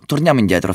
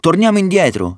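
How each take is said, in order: First: Slightly raised, urging voice; mild plea. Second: Very high-pitched, urgent counter-call; insistent cry. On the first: Tired Ulisse pleads with his brothers to turn back, mildly urging. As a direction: gently urge them to turn back. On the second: Ulisse opposes Roderigo at the veil, insistent high cry. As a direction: cry it out against going on. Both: A narrator's reading.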